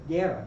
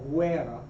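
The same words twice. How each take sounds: First: The g is hard and the u silent. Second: The u is sounded like a w after g. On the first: The speaker calls it right. "a hard G, a silent U" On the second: The speaker calls it wrong. "not guerra"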